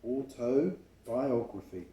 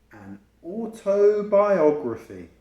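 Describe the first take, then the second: First: Slow repeat. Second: Autobiography drawn out slowly syllable by syllable, higher and louder; slow, careful word. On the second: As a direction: spell out autobiography slowly for children. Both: Shown as a demonstration. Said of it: "That's a long word, isn't it?".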